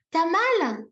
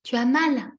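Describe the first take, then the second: First: High, pointed mock question; showily uncaring example; unsympathetic told-you-so. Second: Acted sympathy. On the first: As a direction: ask as if it serves them right. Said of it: "C'est bien fait pour toi, je te l'avais dit". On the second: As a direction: acknowledge a little one's pain kindly. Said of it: "et on fait plutôt". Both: Shown as a demonstration.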